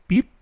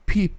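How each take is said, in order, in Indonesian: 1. P-nya ada hembusan udara yang lemah. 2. P-nya ada hembusan udara yang kuat. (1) "Bukan peep" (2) "P-nya plosif ya"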